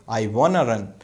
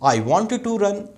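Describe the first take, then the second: First: Want and to blend into one word, wanna. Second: Want and to are said as separate words. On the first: "वाना" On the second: "वांट टू"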